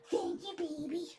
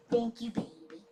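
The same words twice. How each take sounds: First: Cooing thanks. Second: Soft thanks. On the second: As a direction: murmur it to the pet. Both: Real, not acted. Thanking the dog.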